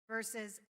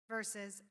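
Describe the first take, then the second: Both takes have the same delivery.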